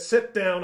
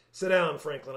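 First: Firm, raised-voice order to sit; louder command. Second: Said in the usual way. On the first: A narrator's reading. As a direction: cut in louder, laying down the law. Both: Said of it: "a little louder this time".

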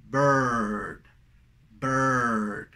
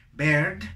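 First: Low, long "bird" with central er, no clear eh; correct pronunciation. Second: "bird" wrongly said with a plain eh, like berd; wrong pronunciation. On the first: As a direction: hold the r-coloured vowel in "bird". ("bird" correcto, vocal central alargada) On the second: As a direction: put a clear Spanish E in "bird". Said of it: "No deberíamos de decir". ("bird" mal dicho, con E clara) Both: Shown as a demonstration.

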